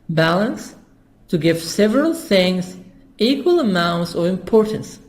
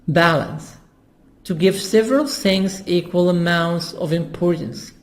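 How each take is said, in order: The two takes are said the same way.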